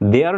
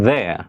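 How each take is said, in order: First: It starts with a hard D-like sound. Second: It starts with a soft TH sound. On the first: The speaker calls it wrong. "দেয়ার না বলে" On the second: The speaker calls it right. "আমাদেরকে বলতে হবে there"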